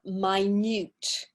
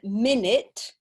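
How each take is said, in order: First: The stress is on the second syllable. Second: The stress is on the first syllable. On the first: It means very small. "if we use it as an adjective, then we have minute. So the stress is different" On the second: It names a unit of time. "one minute"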